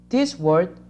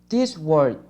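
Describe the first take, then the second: Both takes have the same delivery.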